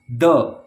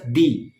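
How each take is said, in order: First: The word is said with a short uh vowel. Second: The word is said with a long ee vowel. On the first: It comes before a word starting with a consonant. "when the is added with a word that starts with a consonant, we pronounce it as the" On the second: It comes before a word starting with a vowel. "when you use the with a word that starts with a vowel, you pronounce it as the"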